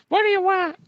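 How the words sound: It is said in a tiny voice.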